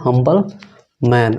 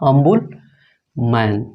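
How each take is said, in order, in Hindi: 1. यह शब्द 'h' ध्वनि से शुरू होता है। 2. यह शब्द स्वर से शुरू होता है, इसमें 'h' नहीं है।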